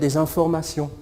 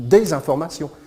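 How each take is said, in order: First: The words run together with no break. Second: There is a short break after the first word. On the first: It means false information spread on purpose. "si on associe les mots" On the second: It means pieces of news. "qu'on les dissocie"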